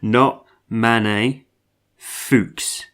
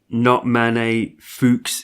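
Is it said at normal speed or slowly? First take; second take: slowly; normal speed. First: It is said slowly. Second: It is said at normal speed.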